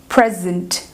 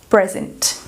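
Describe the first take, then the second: Both takes have the same delivery.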